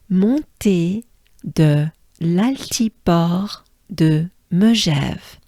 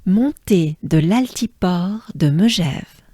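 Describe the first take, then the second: First: "Montée de l'altiport de Megève" slow, piece by piece; broken down slowly. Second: "Montée de l'altiport de Megève" connected, in one flowing phrase; the French way. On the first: Teacher repeats it once again for learners, slowly broken down. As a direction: separate each part of "Montée de l'altiport de Megève" with a pause. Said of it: "it's easy if we break it down". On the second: Teacher shows learners the French way, connected without breaks. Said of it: "let's do it the French way". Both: Shown as a demonstration.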